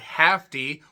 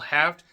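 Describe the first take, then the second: First: The name ends with an added 'ee' sound. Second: The name ends with a plain 't' sound. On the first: The speaker calls it wrong. "not Hafty. Why would you say it like that?" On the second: The speaker calls it right. "promoter Al Haft"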